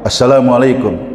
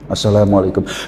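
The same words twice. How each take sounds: First: The greeting is said loudly. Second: The greeting is said softly.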